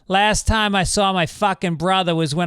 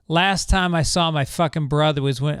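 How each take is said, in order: First: It is read in a Boston accent. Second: It is read in a plain, neutral accent.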